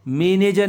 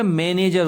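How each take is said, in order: First: मैनेजर said with plain "e", as "me-ne-jar"; wrong vowel demo. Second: मैनेजर with open "ai", as "mai-ne-jar"; correct vowel demo. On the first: Teacher showing the mistake, मैनेजर as me-ne-jar. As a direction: make the first vowel of मैनेजर a narrow e. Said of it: "मैनेजर नहीं होता". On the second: Teacher correcting children, मैनेजर as mai-ne-jar. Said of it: "मैं में दो मात्रा आएंगी". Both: Shown as a demonstration.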